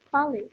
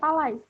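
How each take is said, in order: First: The final vowel is said as one vowel. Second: The final vowel is said as two vowels. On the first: The speaker calls it right. "tapi pale" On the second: The speaker calls it wrong. "kita bukan bacanya palais"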